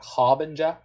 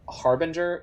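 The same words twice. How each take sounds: First: The R sounds are dropped. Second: The R sounds are clearly pronounced.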